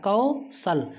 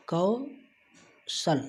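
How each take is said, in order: First: Said in the usual way. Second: कौशल stretched very slowly, syllable by syllable; drawn-out demo. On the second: Shown as a demonstration. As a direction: draw out कौशल very slowly for the class. (कौशल को बहुत धीरे खींचकर बोलें) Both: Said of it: "जो सा है वो ला के साथ पढ़ा जा रहा है".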